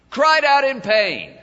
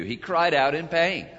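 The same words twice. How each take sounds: First: "Cried out in pain" higher and much louder, hitting "cried"; loud preached repeat. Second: Said in the usual way. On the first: Shown as a demonstration.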